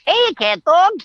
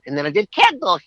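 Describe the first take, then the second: First: Much higher, squeaky cartoon character call; bright cartoon shout of the show's name; Winslow cartoon voice. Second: Said in the usual way. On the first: Shown as a demonstration. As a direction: pop into the Winslow voice, greeting the show by name. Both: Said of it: "I played Winslow".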